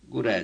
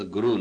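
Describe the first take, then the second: First: ਗੁਰੈ ending in an open "e/ai" vowel; ਗੁਰੈ with the sihari sounded like a laan; final vowel as laan. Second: ਗੁਰੂ with a final long "oo"; ਗੁਰੂ as the everyday word "gu-roo"; misreading as guru. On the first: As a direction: say ਗੁਰੈ as "gu-rai", not "gu-roo". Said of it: "ਇਹ ਸਿਆਰੀ ਲਾਂ ਵਾਂਗੂ ਬੋਲੇਗੀ". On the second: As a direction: say ਗੁਰੂ ending in "oo", not "ai". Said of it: "ਲਫ਼ਜ਼ ਗੁਰੂ ਨਹੀਂ ਪੜ੍ਹਨਾ". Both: Shown as a demonstration.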